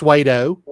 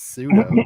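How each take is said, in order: First: The word begins like suede. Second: The word begins like sue. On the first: Someone else said it this way. The speaker calls it wrong. "He said it's Suedo" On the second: This is the correction. The speaker calls it right. "it's pseudo"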